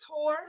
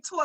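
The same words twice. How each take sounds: First: "tour" rhyming with "poor"; standard pronunciation. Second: "tour" pronounced like "tore"; New York accent. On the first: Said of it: "But isn't it tour?". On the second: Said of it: "we say tour like T O R E". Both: Shown as a demonstration.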